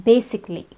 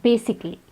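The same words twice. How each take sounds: The two takes are said the same way.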